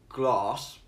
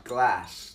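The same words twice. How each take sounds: First: It is said in his own non-American accent. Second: It is said in an American accent.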